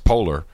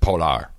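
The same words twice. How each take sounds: First: It is pronounced like the English word polar. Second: It is pronounced the local Venezuelan way. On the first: "of course it's polar" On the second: "you pronounce it Polar locally"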